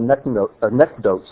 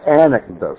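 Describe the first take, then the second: First: The stress is not on the first syllable. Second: The stress is on the first syllable.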